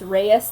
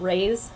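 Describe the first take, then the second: First: The name has two syllables, stress on the second. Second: The name is one syllable, like rays. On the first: The speaker calls it right. "like you put emphasis on that second E" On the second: The speaker calls it wrong. "I always called him Rays when I read it, like Rays of Sun"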